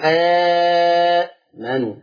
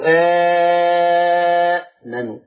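First: The opening long vowel is held for four counts. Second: The opening long vowel is held for six counts. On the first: "وأربعة" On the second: "أو ستة"

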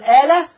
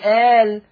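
First: The final lam is followed by a short vowel. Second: The final lam is silent with no vowel. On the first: The speaker calls it wrong. "حد بيقف على كلمة قرآنية بالحركة" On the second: The speaker calls it right. "فوقفنا بالسكون"

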